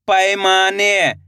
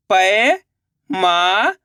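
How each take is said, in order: First: Said in the usual way. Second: पैमाने stretched very slowly, rising; drawn-out sounding out. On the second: Shown as a demonstration. Teacher sounding out पैमाने slowly for pupils. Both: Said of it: "तो मिलके बन जाएगा".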